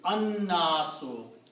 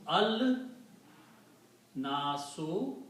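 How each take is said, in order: First: The L merges into the following N sound. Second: The article keeps its L sound before the noun. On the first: The speaker calls it right. "la will not be pronounced, it will be an-nasu" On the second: The speaker calls it wrong. "so it becomes al nasu"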